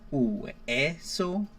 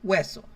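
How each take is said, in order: First: The two vowels are pronounced as separate syllables. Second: The two vowels glide together into one syllable. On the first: The speaker calls it wrong. "Instead of saying" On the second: The speaker calls it right. "you say hueso, they almost sound together as one"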